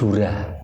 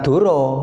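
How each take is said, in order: First: The final vowel is pronounced as 'a'. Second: The final vowel is pronounced as 'o'. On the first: It means a handhold. The speaker calls it right. "tapi Dura" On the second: It means a lie. The speaker calls it wrong. "Bacanya bukan Duro"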